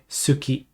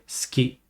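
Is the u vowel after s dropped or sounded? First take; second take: sounded; dropped. First: The u vowel after s is sounded. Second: The u vowel after s is dropped. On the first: The speaker calls it wrong. "typically you don't say suki" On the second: The speaker calls it right. "You say ski"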